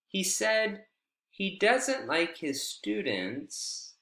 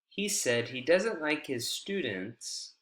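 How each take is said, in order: First: The voice stays level, mid-height, at the end. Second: The voice falls fully at the end. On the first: The speaker is not done and will continue. "Here it's kind of in between" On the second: The speaker has finished speaking. "So here we have falling intonation, full falling intonation"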